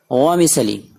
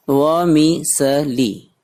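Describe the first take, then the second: First: Said in the usual way. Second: "वमिसली" very slow, broken into wo-mi-se-li; syllable by syllable. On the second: Shown as a demonstration. Teacher models new word for students, "वमिसली" slowly syllable by syllable. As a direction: spell out "वमिसली" by sound, a gap after each syllable.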